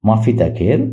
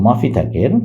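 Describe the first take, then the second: The two takes are said the same way.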